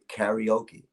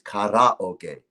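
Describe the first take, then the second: First: It is pronounced the American English way. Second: It is pronounced the original Japanese way. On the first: This is how Americans say it. The speaker calls it wrong. "in America they say karaoke. That's the incorrect pronunciation" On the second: This is the original form of the word. The speaker calls it right. "It is karaoke"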